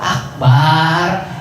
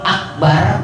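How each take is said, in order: First: The vowel after the b is drawn out long. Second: The vowel after the b is short. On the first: It means a drum. The speaker calls it wrong. "artinya beduk" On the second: It means most great. The speaker calls it right. "kalau akbar baknya pendek artinya maha besar"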